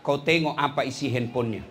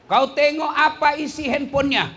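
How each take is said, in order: First: Said in the usual way. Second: Higher and louder, hammering it home; preacher urging parents to check the phone, loud and high; emphatic loud repeat. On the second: Shown as a demonstration. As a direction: repeat it with full force.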